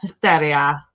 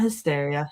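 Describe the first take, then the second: First: The word is said with a dramatic, rhythmic delivery. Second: The word is said plainly, without special rhythm. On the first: The speaker calls it right. "It's gotta have that rhythm to it" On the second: The speaker calls it wrong. "Not hysteria"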